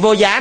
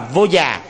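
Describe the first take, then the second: First: The second syllable has a high rising tone. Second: The second syllable has a low falling tone. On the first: The speaker calls it wrong. "Chữ vô giá này" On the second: The speaker calls it right. "đọc đúng đó là vô già"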